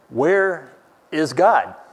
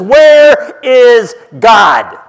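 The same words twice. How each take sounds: First: It is asked in a somewhat stern tone. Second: It is asked loudly in a very stern tone.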